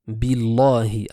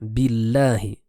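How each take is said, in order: First: The l sound is heavy and thick. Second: The l sound is light and thin. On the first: The speaker calls it wrong. "erreur courante le fait de dire Billahi" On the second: The speaker calls it right. "se prononcera de manière légère"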